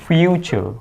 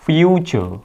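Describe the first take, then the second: First: The middle consonant is a ch sound. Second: The same.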